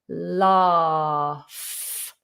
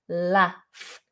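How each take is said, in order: First: The vowel is long and open, southern British style. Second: The vowel is short, northern or American style. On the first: "If you're going for British R P or any southern variation of British accent, then we do a long vowel R" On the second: "It's a northern version which is also the same as a American version, and it's with a short vowel"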